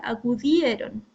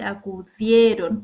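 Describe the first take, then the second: First: Acudieron with the stress moved off the E; acudieron, stress away from the E; wrong stress. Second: Acudieron with the stress on the E, louder; acu-DIE-ron; correct stress. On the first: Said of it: "uno no dice acudieron". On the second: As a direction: say acudieron with weight on the E. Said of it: "uno dice acudieron". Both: Shown as a demonstration.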